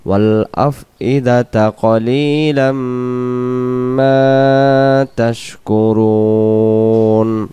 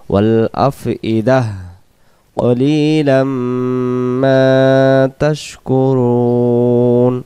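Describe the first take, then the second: First: There is no pause; af'idata runs straight on. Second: There is a pause after af'idah, ending in h. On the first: "যদি এই জায়গায় আমরা দমটা ধরে যাই" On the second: "দম ছেড়ে দেওয়ার জায়গা"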